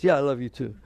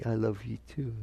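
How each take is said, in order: First: Louder, throwaway "yeah"; perfunctory, careless answer; offhand reply. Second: Soft, low "I love you too"; quiet, tender answer; hoped-for reply. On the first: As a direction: toss it off as if it's no big deal. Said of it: "What if they say it like this?". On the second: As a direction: say it gently and sincerely, voice lowered. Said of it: "They're supposed to say". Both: Shown as a demonstration.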